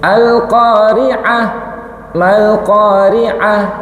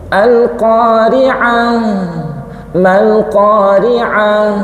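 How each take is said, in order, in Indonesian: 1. Akhir hurufnya dipotong pendek dan keras. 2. Akhir hurufnya dipanjangkan dan lembut. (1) "Hurufnya terbaca tapi atos" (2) "Empuk nggih?"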